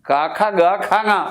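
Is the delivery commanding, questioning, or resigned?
commanding. It is said in a firm, commanding way. The speaker insists the other must leave. "നീ പോയേ പറ്റൂ"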